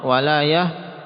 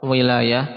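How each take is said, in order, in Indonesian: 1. Suku kata pertama memiliki vokal 'a'. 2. Suku kata pertama memiliki vokal 'i'. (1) "kalau dengan fathah itu maknanya nusrah" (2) "boleh memang dibaca kasrah"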